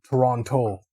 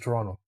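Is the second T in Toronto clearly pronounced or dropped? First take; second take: pronounced; dropped. First: The second T is clearly pronounced. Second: The second T is dropped. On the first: The speaker is new to the city. "newer people that like uh, migrated to the city" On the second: The speaker grew up in the city. "they didn't enunciate the T really"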